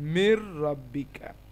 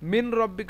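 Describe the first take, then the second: First: The n merges into a doubled r. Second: The n is pronounced clearly before the r. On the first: "এখানে উচ্চারণ কি হবে?" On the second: "মিন রব্বিকা হওয়া উচিত"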